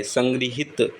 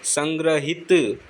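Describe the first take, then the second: First: संग्रहित as "san-gri-hit"; correct ri sound. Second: संग्रहित as "san-gra-hit"; slow संग्रहित with "gra" in the middle; wrong ra form. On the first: Teacher correcting the word, संग्रहित said with "gri". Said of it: "री की मात्रा आती है, न कि र की". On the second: Teacher showing the error, संग्रहित said with "gra". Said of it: "री की मात्रा आती है". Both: Shown as a demonstration.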